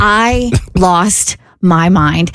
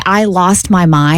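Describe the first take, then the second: First: "I lost my mind" slowly, word by word; emphatic repeat. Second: Said in the usual way. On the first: Shown as a demonstration. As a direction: drive home each word of "I lost my mind", lower and half speed. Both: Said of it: "when I say I lost my mind".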